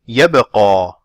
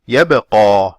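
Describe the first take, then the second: No difference in how they are said.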